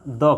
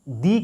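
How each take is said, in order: First: The vowel is a short 'uh' sound. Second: The vowel is a long 'ee' sound. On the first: It comes before a consonant sound. "यहाँ द का उच्चारण होगा" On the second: It comes before a vowel sound. "यहाँ दी का उच्चारण होगा"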